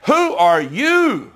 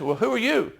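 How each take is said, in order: First: Slow, drawn-out "Who are you?" with weight on "you"; pointed challenge. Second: Softer, offhand musing "Well, who are you?"; casual puzzled question. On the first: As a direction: lean hard on each word of "Who are you?" as a demand. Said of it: "That is what they're really saying". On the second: Reader today wondering aloud, softer and offhand. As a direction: toss it off like a modern reader shrugging. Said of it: "we can understand the question says". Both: Shown as a demonstration.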